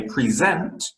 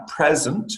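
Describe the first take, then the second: First: "present" as the verb, pree-ZENT; "present" with the weight on ZENT; verb stress. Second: "present" as the gift, PREZ-ent; slow "present", strong PREZ and weak ent; noun stress. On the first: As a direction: stress the second syllable of "present". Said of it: "talking about giving a presentation". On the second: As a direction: stress the first syllable of "present". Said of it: "and it is a gift". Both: Shown as a demonstration.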